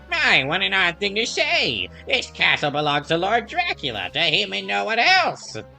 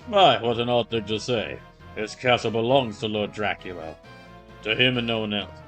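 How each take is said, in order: First: It is said in a Skeleman-like voice. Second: It is said in an imposing voice.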